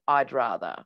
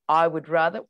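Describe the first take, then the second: First: The word would is contracted to 'd. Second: The word would is said in full. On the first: The speaker calls it right. "we generally would say" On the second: The speaker calls it wrong. "We wouldn't say"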